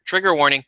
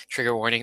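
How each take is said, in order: First: Said in the usual way. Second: Repeats it with a laugh, a bit faster; chuckling at his own joke. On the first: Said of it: "racism alert". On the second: Real, not acted. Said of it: "that's funny".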